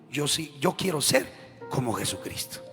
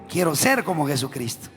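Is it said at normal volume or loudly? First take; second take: normal; loudly. First: It is said at normal volume. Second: It is said more loudly.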